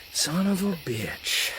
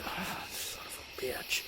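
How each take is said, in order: First: Very slow, hushed but voiced curse; acted dismay, soft and stretched; mock defeated curse. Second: Slow, voiceless whispered curse; drawn-out whispered dismay; mock defeated whisper. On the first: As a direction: draw it out softly, pitched up. Acted regret, repeated with voice. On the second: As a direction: whisper it like a guesser proved wrong. Acted regret of a wrong guesser.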